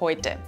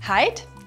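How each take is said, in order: First: The vowel is 'oi', as in standard German. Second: The vowel is 'ei', as in the dialect. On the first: "steht für" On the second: "Hier wird aus Oi ein Ei"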